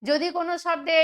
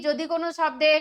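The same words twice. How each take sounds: The two takes are said the same way.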